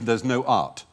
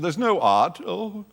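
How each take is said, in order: First: It is said plainly, in a normal voice. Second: It is said hammily, like an old-style actor.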